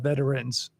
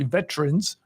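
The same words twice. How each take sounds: First: The word is said with three syllables. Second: The word is said with two syllables. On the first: It sounds formal or ceremonial. "to be more formal or ceremonial" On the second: It is the usual everyday form. "It's usually veterans, ... plural it's usually two syllables"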